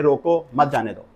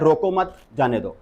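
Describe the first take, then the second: First: रोको, brief pause, then मत जाने दो run together; pause after रोको. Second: रोको मत run together, pause, then जाने दो; pause after मत. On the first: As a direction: break after रोको, keep मत joined to जाने दो. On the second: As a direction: join रोको to मत and break before जाने दो. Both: Shown as a demonstration. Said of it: "pause कहाँ लेना है".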